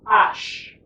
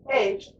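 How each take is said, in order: First: The letter is said with a French pronunciation. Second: The letter is said with an English pronunciation. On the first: "as opposed to French is H" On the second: "in English it's H"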